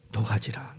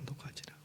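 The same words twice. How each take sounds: First: Gently pleading repetition; soft repeat. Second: Whispered echo of the command. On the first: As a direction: drop to a hushed, softer plea. Repeats Jesus' command softly. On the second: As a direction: breathe it out as a whisper. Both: Acted.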